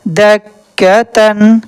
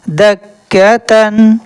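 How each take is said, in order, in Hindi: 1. शब्द का अंत पूरी '-tan' ध्वनि के साथ होता है। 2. शब्द का अंत पूरी '-tan' ध्वनि के साथ होता है।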